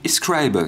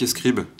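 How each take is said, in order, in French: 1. Le nom se prononce à l'américaine. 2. Le nom se prononce à la française.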